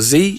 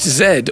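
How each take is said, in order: First: The letter is said as zee. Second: The letter is said as zed.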